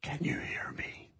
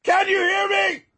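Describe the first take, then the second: First: Very soft, voiceless whisper. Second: High-pitched yell; shout. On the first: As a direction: whisper it as a test of dynamics. Dynamics demo, very soft. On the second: Dynamics demo, very loud contrast. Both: Shown as a demonstration.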